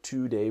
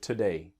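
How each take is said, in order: First: The first syllable has a full, strong vowel. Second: The first syllable has a soft, reduced vowel. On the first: The speaker calls it wrong. "It's not strong, not today" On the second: The speaker calls it right. "Nice and soft"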